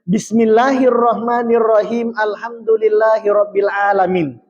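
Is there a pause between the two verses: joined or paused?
joined. The two verses run together without a pause. "membaca basmalah tapi ipasi sambung ngisiwawa alhamdulillahirabbil alamin"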